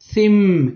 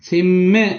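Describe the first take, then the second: First: The final m ends plainly without a bounce. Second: The final m is released with a bounce. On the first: The speaker calls it right. "மீமுக்கு கல்கலா செய்யப்படாது" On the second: The speaker calls it wrong. "சிம் என்று சொன்னா பிழை"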